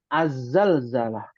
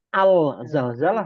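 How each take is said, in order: First: The article merges into a doubled Z sound. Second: The article keeps a clear separate L sound. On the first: The speaker calls it right. "Jadi yang betul huruf syamsiah, az-zalzalah" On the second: The speaker calls it wrong. "Bukan al-zalzalah, bukan"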